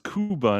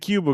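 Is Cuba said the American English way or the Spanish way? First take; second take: Spanish; American. First: It is said with a Spanish pronunciation. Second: It is said with an American English pronunciation. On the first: This is how the people there say it. The speaker calls it right. "just because somebody said it was Cuba" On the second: This is how people say it here. The speaker calls it wrong. "we say Cuba because we're like, you know, we're talking the way people talk here"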